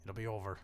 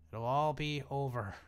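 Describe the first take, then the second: First: Said in the usual way. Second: Louder, slow, hammed-up doom announcement on ALL; mock dramatic proclamation. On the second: Shown as a demonstration. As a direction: play it like a mock epic narrator declaring the end. Dramatic repeat of the same phrase.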